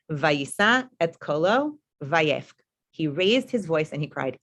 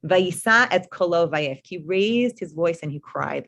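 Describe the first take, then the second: First: Very slow, drawn-out reading of the verse. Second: Slow, deliberate reading with translation; slow verse reading. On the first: Teacher rereads the verse to her class, very slowly. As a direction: stretch the Hebrew out slowly, then translate. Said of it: "exact same language". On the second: Teacher reads the familiar verse to her class, slowly. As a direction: read it slowly, then translate. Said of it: "this phrase is very familiar". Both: Shown as a demonstration.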